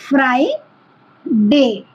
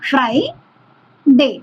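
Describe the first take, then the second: No difference in how they are said.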